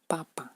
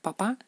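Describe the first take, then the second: First: The word is said the Russian way. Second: The word is said the Spanish way. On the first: "papa en ruso" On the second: "papá en español"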